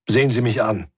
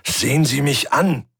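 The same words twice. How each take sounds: First: Said in the usual way. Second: Sharp raised command; commanding order. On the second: Acted. Thomas orders the weeping Svensson to look at him. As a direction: snap her out of it with an order. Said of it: "dem Befehl".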